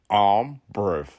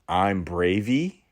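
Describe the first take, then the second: First: The word is said short, like 'brev'. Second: The word ends with an added 'ee' sound. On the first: "B R E V" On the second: "the E is silent. Not now"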